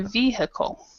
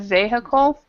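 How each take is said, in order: First: The stress is on the first syllable. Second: The stress is on a later syllable. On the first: The speaker calls it right. "stress the first um, first syllable, so we say vehicle" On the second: The speaker calls it wrong. "instead of vehicle"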